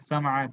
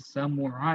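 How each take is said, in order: First: The middle vowel is a. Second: The middle vowel is u. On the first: "समआ गलत गलत हो जाएगा" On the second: "समुआ नहीं पढ़ते हैं"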